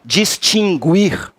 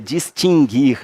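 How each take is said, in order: First: The u after the g is pronounced. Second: The u after the g is silent. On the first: The speaker calls it wrong. "As pessoas têm um hábito ruim de dizer assim" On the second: The speaker calls it right. "é distinguir"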